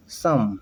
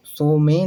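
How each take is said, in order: First: "सम" with a short 'uh' vowel; correct some. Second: "सो में" as 'so-may', sounding both vowels; misread some. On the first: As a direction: say "सम" as one syllable, 'sum'. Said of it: "बल्कि क्या पढ़ते हैं". ("सम" में छोटा 'अ' बोलें) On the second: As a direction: read 'some' wrongly as "सो में". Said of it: "सो में नहीं पढ़ेंगे". ("सो में", 'ओ' और 'ए' दोनों के साथ) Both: Shown as a demonstration.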